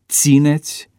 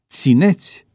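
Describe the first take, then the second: First: The stress is on the first syllable. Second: The stress is on the second syllable. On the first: The verb is treated as third conjugation. The speaker calls it right. "Corect se spune" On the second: The verb is treated as second conjugation. The speaker calls it wrong. "pronunția cu accentul schimbat"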